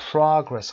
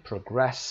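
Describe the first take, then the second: First: "Progress" with the weight on PRO; first-syllable stress. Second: "Progress" as a verb, pro-GRESS; second-syllable stress. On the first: Teacher giving students the answer, "Progress" stressed on PRO. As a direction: say PRO-gress. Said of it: "قسمت اول". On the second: Teacher showing students the verb, "Progress" stressed on GRESS. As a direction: put the weight on GRESS. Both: Shown as a demonstration.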